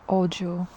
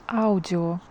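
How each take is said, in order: No difference in how they are said.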